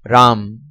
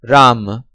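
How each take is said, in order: First: It is said the Hindi way. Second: It is said the Sanskrit way. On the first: "Hindi pronunciation" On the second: "Sanskrit pronunciation"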